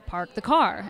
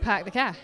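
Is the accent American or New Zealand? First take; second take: American; New Zealand. First: It is said in an American accent. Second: It is said in a New Zealand accent. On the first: "you guys would say" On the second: "And we're like"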